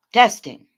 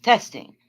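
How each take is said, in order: First: Much louder test call; loud mic check. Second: Said in the usual way. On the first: Real, not acted. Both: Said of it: "Is it still?".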